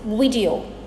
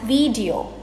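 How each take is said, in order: First: The first vowel is a short i sound. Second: The first vowel is a long ee sound. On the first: The speaker calls it right. "it is I. Both the I and the E syllables in this word are pronounced as short I sounds" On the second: The speaker calls it wrong. "A lot of us pronounce this as video, but it is not E"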